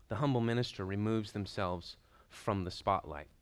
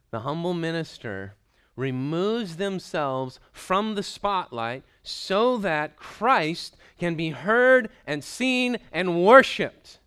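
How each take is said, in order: First: Said in the usual way. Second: "humble", "heard" and "worshiped" drawn out, slow, louder and higher; overemphasized. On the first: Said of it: "I added all those words on there because I wanted to overemphasize". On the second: Shown as a demonstration. Preacher overemphasizing the point to the congregation, slow and building loud. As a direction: build it slowly to a loud, high peak on "worshiped". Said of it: "I wanted to overemphasize that fact".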